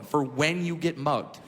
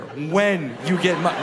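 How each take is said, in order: First: Said in the usual way. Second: "when" drawn out and punched; stress on "when". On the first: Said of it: "Key word there". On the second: Shown as a demonstration. Comedian stressing the pamphlet's key word, "when" hit hard. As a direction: lean hard and slowly on "when". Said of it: "Not if, when".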